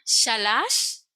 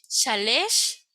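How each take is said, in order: First: The last syllable has an a vowel. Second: The last syllable has an e vowel. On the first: "la pronunciamos como A" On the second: "puede pronunciarse A, E"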